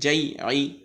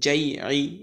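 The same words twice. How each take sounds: Both takes have the same delivery.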